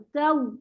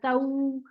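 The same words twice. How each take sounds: First: The final w is pressed and stopped crisply. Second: The final w glides softly like a diphthong. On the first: The speaker calls it right. "वहां पर नबर होगा" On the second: The speaker calls it wrong. "ये वाउलीन जैसा बन जाएगा"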